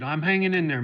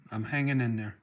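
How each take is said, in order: First: "I'm hanging in there" pushed up, louder, weight on "hanging"; emphatic reassurance. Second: Said in the usual way. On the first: Real, not acted. Answering a viewer's good wishes, louder and firm. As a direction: insist "hanging" firmly to reassure. Repeats reply to well-wisher.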